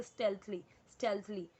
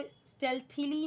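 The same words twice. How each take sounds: First: स्टेल्थली said as stelth-lee, two syllables; crisp correct स्टेल्थली with a clear th; correct pronunciation. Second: स्टेल्थीली with an extra ee sound before the li; the mispronounced form स्टेल्थीली; wrong pronunciation. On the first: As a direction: model pronunciation of स्टेल्थली, falling at the end. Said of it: "इसे बोलेंगे". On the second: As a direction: say स्टेल्थीली, stretching it to four syllables. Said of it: "नहीं बोलेंगे इसे". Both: Shown as a demonstration.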